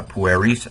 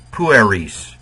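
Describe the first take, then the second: First: Pueris with a rising end, U not stressed; uncertain pronunciation. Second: Pueris stressed on PU, falling away. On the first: Real, not acted. Teacher listing endings, pueris with unmarked first-syllable stress. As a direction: say pueris lightly, lifting the last syllable. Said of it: "probably not pronouncing it right". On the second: Shown as a demonstration. Teacher repronouncing for students, PU-eris with falling end. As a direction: punch the U in pueris and let the rest drop. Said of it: "The U gets it".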